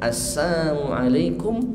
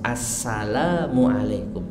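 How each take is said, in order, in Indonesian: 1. Bunyi L dihilangkan dari salam itu. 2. Bunyi L diucapkan dalam salam itu. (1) "Kalau dihilangkan lamnya" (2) "pakai lam"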